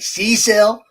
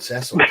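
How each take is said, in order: First: The name is said in an American way. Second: The name is said in a British way.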